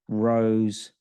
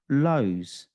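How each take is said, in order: First: The word begins with an R sound. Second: The word begins with an L sound.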